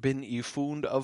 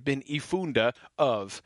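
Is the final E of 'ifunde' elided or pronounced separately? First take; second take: elided; separate. First: The final vowel slides into the next word. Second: The final vowel is sounded apart from the next word. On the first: The speaker calls it right. "you would just sort of do those together" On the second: The speaker calls it wrong. "You wouldn't say bin ifunde of"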